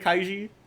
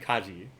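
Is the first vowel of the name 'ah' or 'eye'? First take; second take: eye; ah. First: The first syllable has an 'eye' vowel. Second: The first syllable has a plain 'ah' vowel. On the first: The speaker calls it wrong. "I I keep pronouncing it Kaiji" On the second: The speaker calls it right. "but it's actually Kaji"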